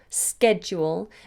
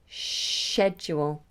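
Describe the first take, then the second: First: It begins with an sk sound. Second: It begins with an sh sound. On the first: This is the American pronunciation. "Americans say sked with a sk" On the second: This is the British pronunciation. "British say sh"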